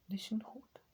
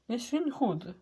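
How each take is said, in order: First: Breathy whispered repeat. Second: Said in the usual way. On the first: Acted. Gamer whispering to himself while hiding.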